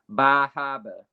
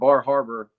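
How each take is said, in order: First: It is said in a local Massachusetts accent. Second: It is said in a plain accent.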